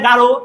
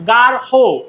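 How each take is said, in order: First: The word ends without a breathy ending sound. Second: The word ends with a breathy 'ho' sound. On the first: The speaker calls it wrong. "আমরা অনেকে বলি যে এটা গাঢ়" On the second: The speaker calls it right. "আসলে এটা গাঢ় না, এটা হচ্ছে গার হো"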